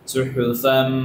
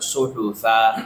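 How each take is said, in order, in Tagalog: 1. Nagtatapos ang salita sa tunog na n. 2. Nagtatapos ang salita sa patinig, walang n. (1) "kapag tutulin mo siya, babanggitin mo yung tanwin" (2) "kapag hihinto kayo"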